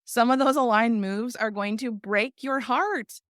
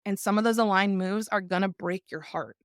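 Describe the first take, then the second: First: Slower, louder, pressing each word; emphatic repeat. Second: Said in the usual way. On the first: Shown as a demonstration. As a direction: drive the line home slowly and heavily.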